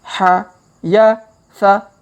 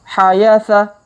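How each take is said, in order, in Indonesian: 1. Suku katanya dibaca pelan dan terpisah. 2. Suku katanya dibaca cepat sebagai satu kata. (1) "kita baca pelan-pelan" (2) "Kalau dipercepat"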